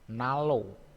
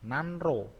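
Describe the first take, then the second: First: The middle is said as a single l. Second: The middle is said as n followed by r.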